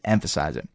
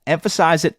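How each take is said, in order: First: "emphasize it" dropped much lower and softer; quiet. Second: Said in the usual way. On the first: Shown as a demonstration. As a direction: let "emphasize it" fall away low and quiet. Repeats emphasize it, fading.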